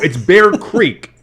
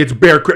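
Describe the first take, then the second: First: The second word is pronounced like 'creek'. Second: The second word is pronounced like 'crick'. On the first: It names the township. "the township of Bear Creek" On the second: It names the stream of water. "if you were to go down to the actual water"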